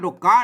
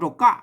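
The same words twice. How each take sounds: First: The syllable ka has a rising tone. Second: The syllable ka has a falling tone. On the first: This is how another regional dialect reads the letter. "ไต้หยวนเพิ่นเสียงชัชวา" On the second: This is how one regional dialect reads the letter. "ไต้ลื้อกับไต้ยองเพิ่นออกเสียงตี"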